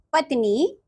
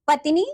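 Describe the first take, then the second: First: पत्नी with "tn" joined and a long ending; correct पत्नी. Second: पत्नी with a vowel splitting "tn"; mispronounced पत्नी. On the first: Teacher giving children the right form, correctly pronounced. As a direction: say पत्नी carefully as "patnee". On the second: Teacher showing children a wrong form, mispronounced. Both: Shown as a demonstration. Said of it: "नीचे कुछ अशुद्ध शब्द".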